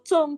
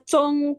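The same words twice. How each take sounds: First: The word is said with a falling tone. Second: The word is said with a high level tone. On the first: It means hit, as in being struck. "seperti Tacung, nah itu baru nada keempat" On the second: It means center. "Cong tuh center"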